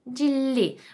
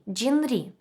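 First: The middle is pronounced as a long double l. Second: The middle is pronounced as n followed by r. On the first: The speaker calls it right. "легше сказати джіллі" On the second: The speaker calls it wrong. "написано джін рі. ... Трошечки незручно"

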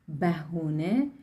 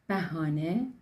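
First: Three syllables with e and u vowels: behune. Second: Three syllables with open a vowels: bahane. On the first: "şeklinde de telaffuz ediliyor" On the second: "Bu kelimenin telaffuzu farklı yörelerde değişiyor"

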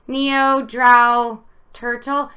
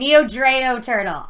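First: The middle word rhymes with tau. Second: The middle word does not rhyme with tau. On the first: The speaker calls it wrong. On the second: The speaker calls it right.

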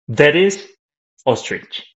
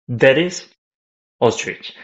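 First: The words are separated with a break between them. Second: The words are separated with a break between them.

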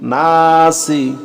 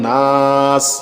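First: The word ends with a short i vowel. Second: The word ends on the s sound. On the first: The reading continues without a stop. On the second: The reader stops on this word.

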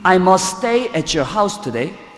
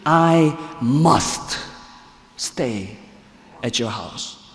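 First: The word must is not specially stressed. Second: The word must is strongly stressed.

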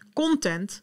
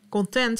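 First: The stress is on the first syllable. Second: The stress is on the second syllable. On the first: It means media material. "Content is inhoud maken" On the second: It means being satisfied. "Content is dat je tevreden bent"

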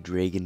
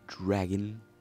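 First: The word is said with a Canadian accent. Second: The word is said without a Canadian accent. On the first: "Because I'm Canadian, I say dragon" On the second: "instead of dragon"

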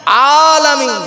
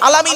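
First: The first vowel is long, with a clear 'ayn. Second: The first vowel is short, without the long 'ayn. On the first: The speaker calls it right. "আইনে খাড়া জবর" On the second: The speaker calls it wrong. "নয়"

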